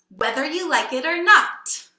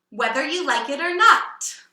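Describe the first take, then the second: Both takes have the same delivery.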